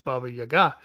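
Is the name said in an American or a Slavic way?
Slavic. The name is said with Slavic-style pronunciation. The speaker calls it right. "the real pronunciation is"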